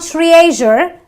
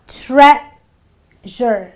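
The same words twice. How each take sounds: First: The first vowel is not a short eh. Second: The first vowel is a short eh sound. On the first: The speaker calls it wrong. "It's not treasure" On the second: The speaker calls it right. "E A gives me the eh sound"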